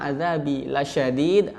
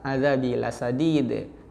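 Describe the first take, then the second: First: The last word is said with an 'sh' sound. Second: The last word is said with an 's' sound. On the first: The punishment is very severe. The speaker calls it right. "Yang mestinya azabi lasyadid" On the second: The punishment is very good. The speaker calls it wrong. "berubah azabi lasadid"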